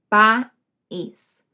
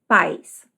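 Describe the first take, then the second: First: The word has two syllables, stressed on the second. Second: The word is a single syllable with a diphthong. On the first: It means country. "Duas sílabas" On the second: It means parents. "a pessoa vai ler como pais"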